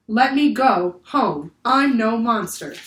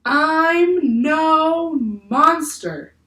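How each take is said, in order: First: Put-on slow, loud, in a child's own voice; repeating the creature. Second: Very slow, high, loud, otherworldly; creature voice. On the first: A narrator's reading. Annie repeats the octopus's words to the crew, slow and loud. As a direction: slowly relay his words. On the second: Acted. Octopus tells the staring crew he is no monster, very slowly.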